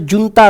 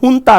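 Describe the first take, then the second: First: The word begins with a J sound. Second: The word begins with an H sound. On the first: The speaker calls it wrong. "That is not pronounced as जुनता रूल" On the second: The speaker calls it right. "उसका correct pronunciation है हुंता रूल"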